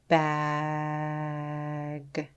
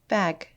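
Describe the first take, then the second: First: The word is stretched out slowly, sound by sound. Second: The word is said quickly as one unit. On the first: "Tap and stretch" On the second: "Say it fast like a word"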